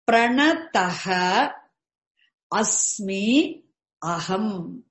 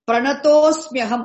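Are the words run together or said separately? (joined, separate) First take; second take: separate; joined. First: The words are said as three separate words. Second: The words are fused into one word.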